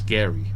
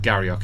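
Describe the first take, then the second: First: The name ends with a vowel sound. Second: The name ends with a k sound. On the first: The speaker calls it right. "It's Gary" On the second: The speaker calls it wrong. "it's not Garriock"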